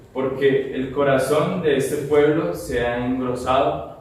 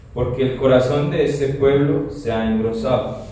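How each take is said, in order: Both takes have the same delivery.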